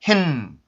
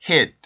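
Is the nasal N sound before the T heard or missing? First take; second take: heard; missing. First: The N sound is strongly nasal and clearly heard. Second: The N sound is missing, with no nasal resonance. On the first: The speaker calls it right. "의도적으로 내가 코에서 진동을 느낄 만큼 발음을" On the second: The speaker calls it wrong. "비강음 소리가 나지 않고 이런 식으로 들립니다"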